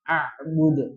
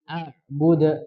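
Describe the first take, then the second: First: Every sound in the word is pressed hard. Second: A light glottal stop, then smooth flow. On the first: The speaker calls it wrong. "jangan seakan-akan menekan semuanya" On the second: The speaker calls it right. "dihidupkan hamzahnya dulu"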